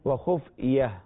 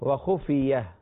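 Both takes have the same delivery.

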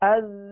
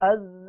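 First: The vowel sounds are kept short. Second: The vowel sounds are stretched out long. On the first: The speaker calls it right. "جبکہ حرکات کو کھینچنا نہیں ہے ... تو دوبارہ مشق کر لیجئے" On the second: The speaker calls it wrong. "اسے ہرگز اس طرح نہ پڑھیے گا، ... حرکات کو ہم نے کھینچ دیا"

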